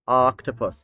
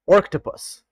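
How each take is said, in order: First: The first vowel is a short 'o' sound. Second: The first vowel sounds like 'or'. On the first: The speaker calls it right. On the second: The speaker calls it wrong.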